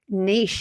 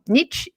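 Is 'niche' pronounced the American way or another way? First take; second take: another way; American. First: It is said in a non-American accent. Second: It is said in an American accent.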